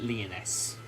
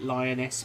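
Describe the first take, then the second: First: The first syllable sounds like 'lee'. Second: The first syllable sounds like 'lie'. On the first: "I've been pronouncing it Leoness" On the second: "I've seen some people pronounce it Lioness"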